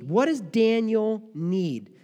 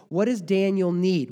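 First: "What does Daniel need?" drawn out slowly and higher, each word weighed; slow emphatic repeat. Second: Said in the usual way. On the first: Acted. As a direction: let the question hang, stretching "need". Preacher repeats the question slower.

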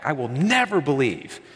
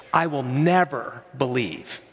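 First: NEVER in "I will never believe" stressed, falling; emphatic Thomas. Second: NEVER in "I will never believe" drawn out slow with a firm fall; slow, weighty, lean on never; emphatic Thomas. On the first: Thomas insists he will never believe, stress on never. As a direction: press the word never firmly. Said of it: "It's emphatic". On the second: Thomas sets his condition, slow stress on never. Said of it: "it's really emphatic in the Greek". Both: Retold or imitated.

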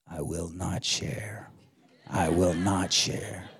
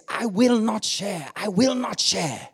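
First: Low, slow, hushed little echo; Curtis. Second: High, emphatic Kenyan preacher; Kenyan accent. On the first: Four-year-old son echoing the sermon, little voice. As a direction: imitate a small child quietly copying the preacher. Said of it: "I heard this little voice". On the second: Kenyan preacher at the height of the sermon, Kenyan accent. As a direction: declare it powerfully in a Kenyan accent. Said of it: "in that Kenyan accent". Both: Retold or imitated.

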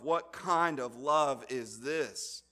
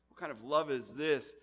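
First: "kind" stressed, slow and weighty; emphatic slow question. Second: "love" stressed, at normal pace; lighter repeat. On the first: Preacher pressing the question on listeners, slow stress on "kind". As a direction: lean on "kind", take it slowly. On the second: Preacher repeating the question, stress on "love" at usual pace. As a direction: lift "love", move along. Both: Shown as a demonstration.

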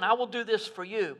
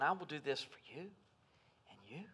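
First: Said in the usual way. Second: You singled out one person at a time; quicker and softer, pointing at each "you"; stress on each you. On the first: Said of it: "Not saying". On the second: Shown as a demonstration. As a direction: press each "you" as meaning one listener. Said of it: "but he's saying".

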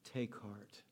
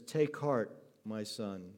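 First: Tender. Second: Said in the usual way. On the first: Acted. Jesus has pity on him.

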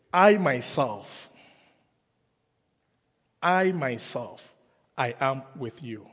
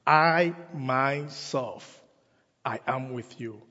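First: Slow, weighty "I myself, I myself", stress on "I"; emphatic stress. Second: "I myself" drawn out very slowly, weight on "I"; very emphatic. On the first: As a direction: lean hard on "I" in "I myself" both times. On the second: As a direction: stretch "I myself" slowly, landing on "I". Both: Shown as a demonstration. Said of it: "It is very emphatic".

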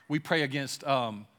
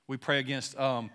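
The two takes are said the same way.

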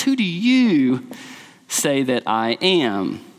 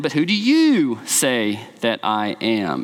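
First: "Who do you" drawn out slow, then a low, falling "say that I am"; emphatic slow question. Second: Slow question with weight on "you"; stress on you. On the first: Preacher re-voicing Jesus, slow emphatic question. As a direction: stretch "Who do you" and let it drop. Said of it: "you" is emphatic". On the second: Jesus asking the disciples, you stressed slowly. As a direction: lean on "you", low and unhurried. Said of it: "is emphatic". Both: Shown as a demonstration.

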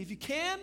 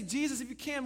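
First: High, rising question of disbelief; incredulous echo. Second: Higher-pitched, tentative appeal to Jesus; doubtful request. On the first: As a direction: fling the doubter's words back as a question. Jesus echoes the doubter in disbelief. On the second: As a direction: ask as a doubting believer would. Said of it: "It's like we say". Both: Acted.

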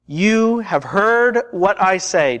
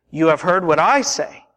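First: Slow and deliberate, each word spaced; slow, weighty quote. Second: I picked out in an unhurried but unstretched line; stress on I. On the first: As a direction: draw it out solemnly. Jesus' words, repeated for emphasis. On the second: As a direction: lean on the word I, keep the rest moving. Same quote, restated more briskly. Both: Acted.

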